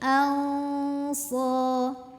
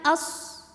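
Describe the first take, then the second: First: The n is faint, between clear and merged. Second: The n merges completely into the following sound. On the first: The speaker calls it right. "tapi ini alsa" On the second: The speaker calls it wrong. "tidak juga dimasukkan as"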